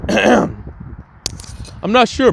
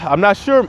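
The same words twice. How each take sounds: First: It is said in a put-on character voice. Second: It is said in the speaker's normal voice.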